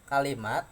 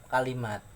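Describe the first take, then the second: Both takes have the same delivery.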